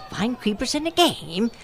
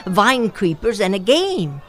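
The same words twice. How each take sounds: First: A rising, wondering question on "game"; puzzled echo. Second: Said in the usual way. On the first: A narrator's reading. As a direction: echo it back, baffled.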